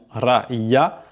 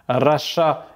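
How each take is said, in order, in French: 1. La consonne du milieu est un son y. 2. La consonne du milieu est un son sh. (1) "et non raya" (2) "le Y se prononce ch"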